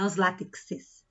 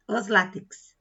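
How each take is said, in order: First: "os látexes" com uma sílaba -es a mais; plural errado. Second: "Os látex" terminando em X, sem sílaba extra; plural invariável correto. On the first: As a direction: acrescentar -es depois do X em "os látexes". (forma errada, "os látexes" terminando em kses) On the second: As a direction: dizer "Os látex" com o final KS seco. (forma correta, "Os látex" sem -es no fim) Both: Shown as a demonstration. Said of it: "Não é os látexes".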